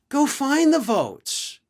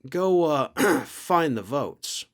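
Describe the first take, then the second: First: It is said in a casual, exasperated tone. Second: It is said in a pointed, insinuating tone. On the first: Finish counting the ballots. "that could easily mean like, look, finish counting the ballots" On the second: Come up with the votes by any means. "same sentence, different inflection, two different meanings"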